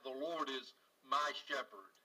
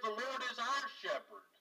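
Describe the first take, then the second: First: "my" stressed, the whole line lower and gentle. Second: "our" stressed, rest of the line even. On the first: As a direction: lean on "my" in "the Lord is my shepherd". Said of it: "I take comfort and I find peace in the fact that". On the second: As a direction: lean on "our" in "The Lord is our shepherd". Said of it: "if he'd have said". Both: Shown as a demonstration.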